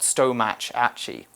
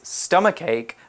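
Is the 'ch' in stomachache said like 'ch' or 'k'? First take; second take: ch; k. First: The 'ch' letters are said as a 'ch' sound. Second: The 'ch' letters are said as a 'k' sound. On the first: The speaker calls it wrong. "rather than a ch sound" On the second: The speaker calls it right. "they're actually pronounced like a K"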